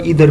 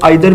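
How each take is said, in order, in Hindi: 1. पहला स्वर 'ee' जैसा सुनाई देता है। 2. पहला स्वर 'eye' जैसा सुनाई देता है। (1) "इधर भी पढ़ा जाता है" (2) "इसको आइदर भी पढ़ा जाता है"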